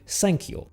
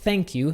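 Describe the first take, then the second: First: It begins with an s sound. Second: It begins with a soft th sound. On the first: "we're going to change that to S" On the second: "our softer T H sound"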